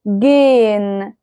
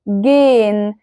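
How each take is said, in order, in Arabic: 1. حرف h صامت، والحركة قبله ممدودة. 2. حرف h صامت، والحركة قبله ممدودة.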